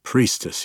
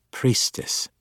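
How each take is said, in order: First: A touch less indignant; grudging repeat, some of the huff gone. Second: Hushed, icy correction; cold correction. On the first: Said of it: "his tone a bit less indignant". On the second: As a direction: correct him coldly in a breathy hush. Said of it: "she corrected". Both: A narrator's reading.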